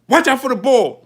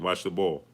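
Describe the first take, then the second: First: It is said with alarm and fear. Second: It is said calmly without alarm.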